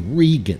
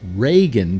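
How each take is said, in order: First: The name is said the Irish-sounding way. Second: The name is said the non-Irish-sounding way. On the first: This is the family's original form of the name. "His name was originally Regan, ... because Regan is Irish" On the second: This form avoids sounding ethnic. "he started pronouncing it Reagan"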